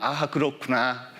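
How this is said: It sounds dutiful and perfunctory.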